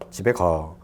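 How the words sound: It ends with a calm, level falling tone. The speaker informs that they are going home. "정보 전달"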